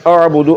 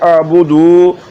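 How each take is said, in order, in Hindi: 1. d के बाद का स्वर छोटा है। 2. d के बाद का स्वर लंबा है। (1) "दाल को लंबा नहीं करना है" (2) "अगर इसको लंबा कर दिए"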